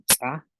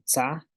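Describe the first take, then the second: First: "tsa" with an ejective ts; sharp glottal release on the ts of "tsa", then the vowel; glottalised TS. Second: Said in the usual way. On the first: Shown as a demonstration. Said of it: "con la glotal". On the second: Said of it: "la tsa sin la glotal".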